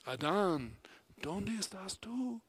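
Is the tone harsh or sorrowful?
sorrowful. It is said in a grieving, longing tone. A loving parent is searching for a lost child. The speaker calls it right. "léelo como si Dios fuera un padre desconsolado que busca a su hijo perdido"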